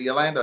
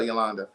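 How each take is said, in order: First: Yolanda with a flat A as in "land"; first pronunciation option. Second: Yolanda with an open "ah" in the middle; alternative pronunciation. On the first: Host checking a viewer's name, Yolanda with the "land" vowel. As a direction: say Yolanda as yo-LAN-duh. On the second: Host offering the other option, Yolanda with an "ah" vowel. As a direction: say Yolanda as yo-LAHN-duh. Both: Shown as a demonstration. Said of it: "Is it Yolanda or Yolanda".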